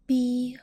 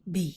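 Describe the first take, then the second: First: The pitch stays level and fairly high. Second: The pitch dips down then rises.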